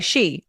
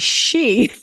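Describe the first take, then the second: First: The sh sound is said lightly and plainly. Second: The sh sound is drawn out with strong emphasis. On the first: "I don't say she" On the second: "you really put a strong emphasis on the sh"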